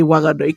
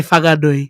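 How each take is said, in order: First: "Wanganui" with a plain initial W; W pronunciation. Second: "Whanganui" with an initial F sound; F pronunciation. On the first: Co-host explaining how they say it, "Wanganui" with a W. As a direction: start "Wanganui" on W rather than F. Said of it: "'cause they dropped the dub". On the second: Co-host answering what we say, "Whanganui" with an F. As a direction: start "Whanganui" on F rather than W. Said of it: "what do we say?". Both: Shown as a demonstration.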